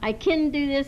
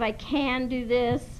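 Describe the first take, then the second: First: The words are slurred with a sloppy vowel. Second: The words are clearly and carefully enunciated. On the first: The speaker calls it wrong. "we are saying" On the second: The speaker calls it right. "instead of"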